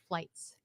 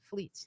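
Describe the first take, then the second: First: The vowel sounds like 'eye'. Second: The vowel sounds like 'ee'. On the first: The speaker calls it right. "It's the German pronunciation, so the I is pronounced" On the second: The speaker calls it wrong. "it's not fleets"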